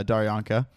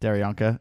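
First: "Daryanka" with an open "dar" start; tentative "Daryanka", first syllable like "dar"; trying a pronunciation. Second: "Daryanka" with a "dare" start; tentative "Daryanka", first syllable like "dare"; trying another pronunciation. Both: Shown as a demonstration. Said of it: "is that how you pronounce it".

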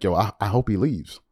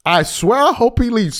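First: Low, soft mock aside; fan in the corner. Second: Higher-pitched, insistent "I swear"; emphatic mock fan. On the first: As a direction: imitate a fan confiding it on the sly. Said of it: "Laker fans in the corner". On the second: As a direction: imitate a fan swearing "I swear" with feeling, on the edge of a laugh. Same corner fan, now emphatic.

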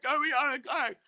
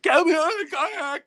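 First: Retold panic, less loud. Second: High, loud panicked plea; retold panic. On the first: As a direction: repeat the frantic plea with less force. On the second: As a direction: imitate the sister's frantic begging from the water. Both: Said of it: "she goes in full-blown panic".

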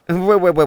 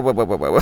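First: Higher, louder startled whoa; alarmed turkey. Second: Lower, rising repeated whoa; fussy turkey. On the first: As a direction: pull back in a flustered turkey voice. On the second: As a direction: keep backing off, fussier. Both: Acted. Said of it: "Tony said".

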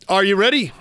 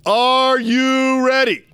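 First: Said in the usual way. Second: Stretched-out, loud announcer call; rally the crowd like a ring announcer; hype call. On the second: Shown as a demonstration. Hyping the show opener.

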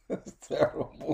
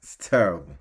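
First: Breathy laughing whisper. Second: Said in the usual way. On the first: Real, not acted.

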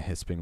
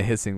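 First: "hisping" said with a p sound in the middle; mispronounced. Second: "hissing" said with a clean double s; corrected. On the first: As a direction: stumble into "hisping" instead of hissing. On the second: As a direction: fix it to "hissing" with no p. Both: Shown as a demonstration. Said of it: "I said that one wrong".

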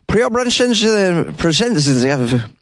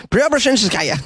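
First: Preobrazhenskaya very slow and higher, mangled ending; garbled pronunciation. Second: Preobrazhenskaya said quickly and smoothly with a falling end; confident pronunciation. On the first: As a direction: drag out Preobrazhenskaya, losing the end. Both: Real, not acted. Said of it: "I think I nailed it".

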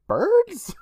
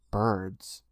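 First: "Birds?" squeaked very high in disbelief; incredulous Birds. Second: "Birds." said low and flat, falling. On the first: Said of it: "who's like". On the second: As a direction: say "Birds." as a flat, dull statement. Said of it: "and Sam says". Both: Retold or imitated.

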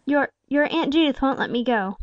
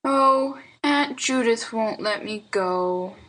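First: Higher aunt voice, stumbling at the start; falter, perplexed and cornered. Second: Put-on slow, let-down little boy; despondent child. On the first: Aunt excuses herself to the boy, faltering. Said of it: "faltered Salome". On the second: Boy expects his aunt to refuse, despondent. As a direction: droop slowly from a higher 'Oh' into childish dejection. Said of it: "said Lionel Hezekiah despondingly". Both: A narrator's reading.

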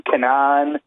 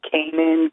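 First: "Kanan" as kuh-NAHN; second mispronunciation. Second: "Kanan" as KAY-nun; long A, first syllable stressed in "Kanan"; others' mispronunciation. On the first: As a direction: stress the open second syllable of "Kanan". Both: Retold or imitated. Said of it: "People call me Kanan".

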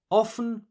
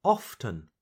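First: Often as OFF-en, higher; silent T. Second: Often as OFF-ten; T pronounced. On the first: Teacher repeats first option, often without the T. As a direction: glide through often without any T. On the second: Teacher repeats second option, often with the T. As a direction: sound the T clearly in often. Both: Shown as a demonstration. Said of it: "choose to pronounce the letter T or not".

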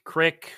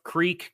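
First: "crick" with a short i; regional "crick". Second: "creek" with a long ee; standard "creek". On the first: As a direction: say "crick" to rhyme with brick. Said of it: "mid-Atlantic accent coming through". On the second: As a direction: say "creek" to rhyme with seek. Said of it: "It's like roof, rough, creek, crick". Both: Shown as a demonstration.

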